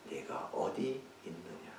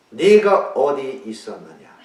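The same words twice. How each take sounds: First: "네가 어디 있느냐?" soft and slow, "있느냐" asked tenderly; gentle question. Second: Accusing question. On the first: God gently seeking hiding Adam, soft and slow. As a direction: ask gently, as if seeking him. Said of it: "그게 우리들에게 중요한 겁니다". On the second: God accusing Adam in the wrong reading, loud and slow. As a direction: thunder "있었느냐" as a rebuke. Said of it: "이게 아니잖아요". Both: Shown as a demonstration.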